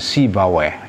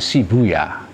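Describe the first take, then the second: First: The name ends in a 'ba-way' sound. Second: The name ends in a short 'boo-yah' sound. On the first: This is how Arabs read the name. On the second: This is how Iranians read the name. "Kalau orang Iran dulu baca, bacanya Sibuyah"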